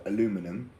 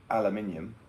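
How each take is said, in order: First: "aluminum" as American "uh-LOO-mi-num"; American pronunciation. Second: "aluminium" as British "al-yuh-MIN-ee-um"; British pronunciation. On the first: Retold or imitated. Briton mocking American words, "aluminum" stressed on LOO. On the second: Shown as a demonstration. Briton correcting Americans, "aluminium" stressed on MIN. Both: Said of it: "when it's".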